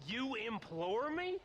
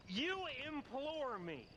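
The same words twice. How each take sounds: First: Incredulous sneer, rising on me; scornful echo. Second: Scornful echo. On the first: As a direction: throw his word back at him, stress on "me". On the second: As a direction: savour the mockery, leaning on "you". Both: Acted. Mocking John's fancy word.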